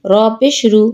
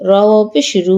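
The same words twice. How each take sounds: First: No stretch on রু; short vowel. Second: Long, sustained রু; drawn-out vowel. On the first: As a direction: end on a short রু. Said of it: "কোথায় দ্রুত পড়ি". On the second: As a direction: hold the final রু for one alif count. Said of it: "কোথায় টান দিই". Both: Shown as a demonstration.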